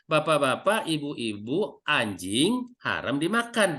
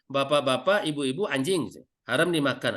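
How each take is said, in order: First: The break comes after 'ibu-ibu', then it runs on. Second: There is a clear break right after 'anjing'. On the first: Dogs are forbidden to eat. "tapi kalau intonasinya" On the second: The listeners themselves are being called dogs. "Kalau penekanan seperti tadi"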